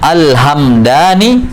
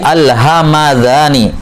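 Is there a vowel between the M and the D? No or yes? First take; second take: no; yes. First: The M is followed directly by D, no vowel. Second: An 'a' vowel is heard between M and D. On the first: "Asalnya mimnya disukun" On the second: "berubah jadi fathah"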